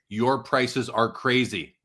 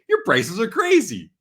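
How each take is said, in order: First: It is said flatly, without playful tone. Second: It is said playfully, in a joking tone.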